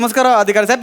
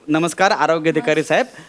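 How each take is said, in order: First: It is said fast. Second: It is said slowly.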